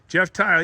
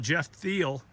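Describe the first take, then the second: First: The surname rhymes with the word tile. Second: The surname rhymes with the word feel. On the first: The speaker calls it right. "just like ceramic tile" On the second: The speaker calls it wrong. "I was calling it Thiel"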